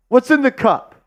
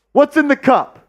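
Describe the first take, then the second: No difference in how they are said.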